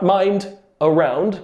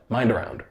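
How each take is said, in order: First: The D is a full, hard D sound. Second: The D is a soft sound linking the words. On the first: The speaker calls it wrong. "Not mind around" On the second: The speaker calls it right. "the D becomes sort of a soft D sound"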